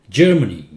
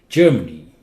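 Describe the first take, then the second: The two takes are said the same way.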